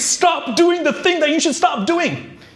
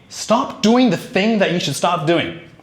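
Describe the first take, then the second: First: It is said with very high, exaggerated energy. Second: It is said with moderate, in-between energy. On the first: "you wanna be over the top" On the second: "somewhere in between"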